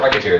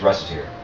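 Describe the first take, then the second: First: The name begins with a 'rocket' sound. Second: The name begins with a 'recite' sound. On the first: The speaker calls it wrong. "it's not Rocketeer" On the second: The speaker calls it right. "it's Reciteer"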